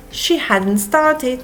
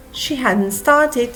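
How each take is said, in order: Both takes have the same delivery.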